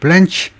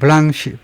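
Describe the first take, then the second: First: The name ends with a hard 'ch' sound. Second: The name ends with a soft 'sh' sound. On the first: The name is not treated as French in origin. "대부분의 미국 애들이 블렌치라고 발음을 하네요" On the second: The name is treated as French in origin. "셰프처럼 시라고 발음하는 것은 주로 프랑스에서 온 겁니다"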